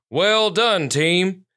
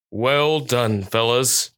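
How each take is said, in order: First: Higher, proudly projected praise; a touch of a booming proud chief; booming with pride. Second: Even, understated praise; steady voice. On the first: Police chief congratulating his team, proudly booming. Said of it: "his voice booming with pride". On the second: Police dog praising his fellow officers, steady and understated. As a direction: praise them steadily, without lifting the voice. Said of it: "his voice steady". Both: A narrator's reading.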